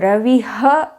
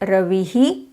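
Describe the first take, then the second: First: The word ends with an added ha syllable. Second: The word ends with an added hi syllable. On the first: "definitely a wrong pronunciation" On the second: "South Indians do it as"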